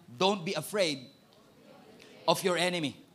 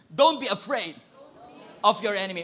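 First: Said in the usual way. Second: Louder, firm "Don't be afraid of your enemy"; with conviction. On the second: Shown as a demonstration. Preacher leading the congregation to declare it with conviction. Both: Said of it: "Say it with conviction".

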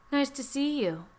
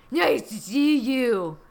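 First: Said in the usual way. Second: Loud, slow, hammed-up Trump; Trump impression. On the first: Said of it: "Oh, just kidding". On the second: Trump greets the visitor at his suite, bad Trump impression. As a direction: play an awful Trump caricature. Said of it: "I can't believe your impression is so awful".

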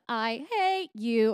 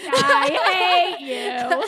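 First: Slow, drawn-out hate; hateful. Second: Loud, slow, drawn-out mock hate. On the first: Shown as a demonstration. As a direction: linger on the words with venom. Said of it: "we'll move into, like, the". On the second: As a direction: belt it out like a mock curse. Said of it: "Do you hate me?".

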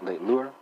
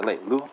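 First: "Le leur" with an R sounded at the end; mistaken audible R. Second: "le lu" ending on the open vowel, R dropped. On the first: Teacher slipping in the French pronoun, "Le leur" with audible R. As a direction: close "Le leur" on an R. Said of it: "no, I'm sorry". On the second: Teacher correcting own French for learners, "le lu" without R. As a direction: say "le lu" without any final R. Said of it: "no R, no R". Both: Shown as a demonstration.

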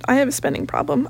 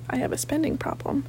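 First: Said in the usual way. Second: Much softer, sheepish confession; sheepish mutter. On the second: Real, not acted. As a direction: admit it quietly, embarrassed.

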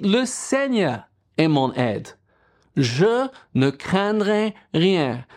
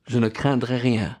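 First: Slow, firm declaration with a lifted pitch on Je; raised voice declaration. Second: Said in the usual way. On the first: Shown as a demonstration. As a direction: declare "Je ne craindrai rien" slowly, each word weighted. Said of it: "il faut que vous levez la voix". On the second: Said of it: "vous avez besoin de dire".

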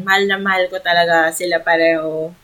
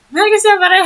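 First: Said in the usual way. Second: Much higher and louder, gushing; high-pitched giddy declaration of love; squealy fangirl gush. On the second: Pretend. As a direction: squeal it like an overexcited fan. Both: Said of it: "Wow, nag-iba na yun".

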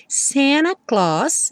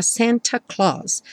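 First: Very slow "Santa" with T dropped, "Sena Claus"; American Santa Claus. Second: "Santa" with a clear T, British; British Santa Claus. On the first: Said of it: "É assim mesmo que a gente pronuncia". ("Santa" sem T, bem devagar) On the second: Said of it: "pronúncia mais britânica". ("Santa" com T, pronúncia britânica) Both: Shown as a demonstration.

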